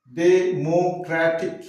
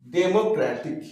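First: "Democratic" drawn out slowly, one syllable at a time. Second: Said in the usual way. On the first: Shown as a demonstration. Teacher counting syllables for learners, slow, divided "Democratic". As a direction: stretch Democratic into its four separate syllables. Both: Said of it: "এ একটা syllable".

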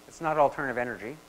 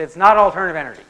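First: Said in the usual way. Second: Louder, fast "It's not alternative energy." with "not" hit hard; stress on not. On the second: Retold or imitated. Lecturer retells the student insisting, punching the word not.

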